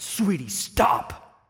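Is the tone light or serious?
serious. It is said in a stern, serious tone.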